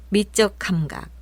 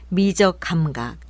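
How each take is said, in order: No difference in how they are said.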